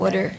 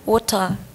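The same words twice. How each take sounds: First: It is said with an American accent. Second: It is said with a British accent.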